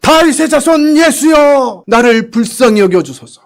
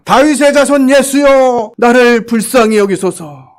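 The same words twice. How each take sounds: First: Slow, high desperate shout; louder cry. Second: Slow, high pleading cry; blind man crying out. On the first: Blind man shouts louder to Jesus, high desperate cry. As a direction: cry out even louder for mercy. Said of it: "더 큰 소리를 질렀어요". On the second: Blind man cries out to Jesus, high pleading call. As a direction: call out desperately for mercy, slowly. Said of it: "소리를 지릅니다". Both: Retold or imitated.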